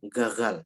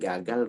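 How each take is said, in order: First: The g is a throaty, rasping ghain sound. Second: The g is a plain Indonesian g sound. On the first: The speaker calls it wrong. "kita nggak ngomong gagal" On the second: The speaker calls it right. "Kita ngomong gagal"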